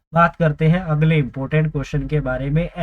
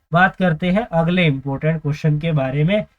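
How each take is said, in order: The two takes are said the same way.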